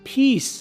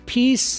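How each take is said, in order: No difference in how they are said.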